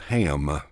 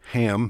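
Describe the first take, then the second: First: The vowel is stretched into three syllables. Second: The word is said as one short syllable. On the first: "squeeze three into one"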